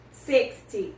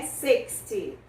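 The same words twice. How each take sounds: First: Said in the usual way. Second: Slow demo. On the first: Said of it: "que é sixty". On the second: Shown as a demonstration. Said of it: "até o sessenta".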